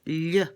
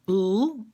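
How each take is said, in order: First: The tongue presses against the palate. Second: The tongue stays off the palate.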